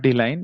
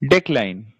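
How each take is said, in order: First: The word is said as dee-line, without k. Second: The word is said as dee-kline, with k. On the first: The speaker calls it wrong. "It is not D-line" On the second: The speaker calls it right. "It is decline"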